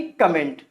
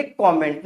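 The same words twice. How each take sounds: First: कमेंट said kuh-MENT, short first vowel; wrong pronunciation. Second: कमेंट said KAW-ment, open first vowel; correct pronunciation. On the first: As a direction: say कमेंट with "uh" after the K. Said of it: "ना कि कमेंट". (कमेंट को छोटे "क" से बोलें) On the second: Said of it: "तो वहाँ पे क्या बोलेंगे?". (कमेंट को "कॉमेंट" बोलें) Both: Shown as a demonstration.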